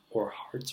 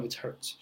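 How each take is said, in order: First: "hertz" said like "harts"; soft, unsure "harts" for "hertz"; alternative pronunciation. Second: "hertz" said like "hurts"; soft self-correction, "hertz" rhyming with "shirts"; corrected pronunciation. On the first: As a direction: try "hertz" with an AR vowel, softly. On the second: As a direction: settle on "hertz" with an ER vowel, softly. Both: Real, not acted. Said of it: "No, it's hertz".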